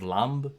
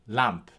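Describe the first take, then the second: First: The word ends with a voiced b sound. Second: The word ends with a voiceless p sound. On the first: "could have been pronounced by someone from that time or a little bit before that time as lamb" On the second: "B at the end of words is like an English P sound"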